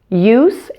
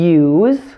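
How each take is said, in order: First: The word ends with a hissing S sound. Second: The word ends with a buzzing Z sound. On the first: It is used as a noun. "the S E endings of nouns and adjectives will be pronounced with an S sound" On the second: It is used as a verb. "the S E endings on the verbs will be pronounced with a Z sound"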